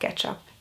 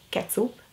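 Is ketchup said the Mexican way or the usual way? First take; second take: usual; Mexican. First: The word is said in the usual way. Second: The word is said with a Mexican pronunciation.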